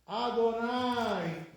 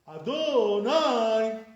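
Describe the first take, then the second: First: The stress is on the first syllable. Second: The stress is on a later syllable. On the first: The speaker calls it right. "You stress the first syllable" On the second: The speaker calls it wrong. "You're stressing the, the wrong syllables"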